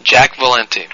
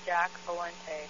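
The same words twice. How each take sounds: First: Said in the usual way. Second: Slow, careful read-back. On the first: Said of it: "V A L E N T E". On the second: Real, not acted. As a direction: read the name back slowly. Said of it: "spell it for me".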